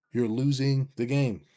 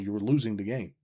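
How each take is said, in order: First: You're losing the game, drawn out and louder; slower, weightier second take; slow, emphatic repeat. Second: Said in the usual way. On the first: Shown as a demonstration. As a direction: lean hard on the repeat of game.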